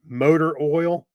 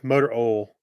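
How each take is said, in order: First: "motor oil" said slowly with a clear oi; slow careful "motor oil", with the oi sound. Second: Tennessee "motor oil" with "oil" as "ol", no i; Southern "motor ol", no i glide. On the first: Shown as a demonstration. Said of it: "he's tried his hardest to say it right". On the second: Retold or imitated. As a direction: drop the i from "oil", Tennessee style. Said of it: "there's no I, the way he says it".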